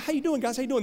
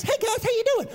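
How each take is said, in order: First: Higher-pitched mock preacher small talk; preachers' talking voice. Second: Very high cartoon mouse voice; Mickey Mouse. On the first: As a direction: lightly imitate a chatty preacher's greeting. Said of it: "they talk to you like this". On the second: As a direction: squeak it like a cartoon mouse preacher. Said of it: "preach and sound like Mickey Mouse".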